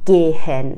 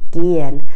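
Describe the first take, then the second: First: The middle h is clearly pronounced. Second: The middle h is silent and the vowel lengthened. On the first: The speaker calls it wrong. "نمیگن گهن" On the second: The speaker calls it right. "میگن گین"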